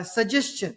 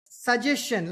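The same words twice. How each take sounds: First: Suggestion said as sud-jes-ton; flat suggestion, no clear syllables; old mispronunciation. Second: Suggestion said flat as su-jes-shun, syllables run together; flat mispronunciation. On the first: Retold or imitated. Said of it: "I don't know if I'm saying that correctly". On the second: Shown as a demonstration. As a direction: say suggestion as one flat lump. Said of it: "like a flat, no syllables statement".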